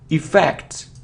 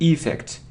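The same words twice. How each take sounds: First: The stress is on the second syllable. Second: The stress is on the first syllable. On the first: The speaker calls it right. "The stress is on the second syllable" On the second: The speaker calls it wrong. "it isn't effect"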